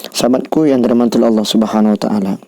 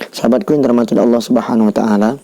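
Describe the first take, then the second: No difference in how they are said.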